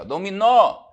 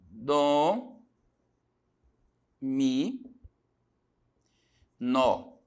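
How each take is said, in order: First: "Dominó" with the final NÓ punched high and loud; stress on NÓ. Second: "Dó, mi, nó" with long pauses between syllables. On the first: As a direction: hit the last syllable of "Dominó" hard. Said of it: "Então, a sílaba tônica, o nó". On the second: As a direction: isolate each syllable: "Dó" ... "mi" ... "nó". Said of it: "a separação". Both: Shown as a demonstration.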